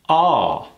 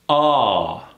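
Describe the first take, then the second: First: The L sound is relaxed and barely there. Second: The same.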